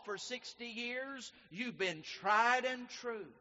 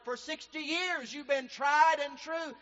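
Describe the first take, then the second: First: It is said at normal volume. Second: It is said a little louder.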